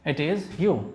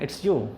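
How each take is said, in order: First: It is said as two full words. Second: It is shortened into one word, it's.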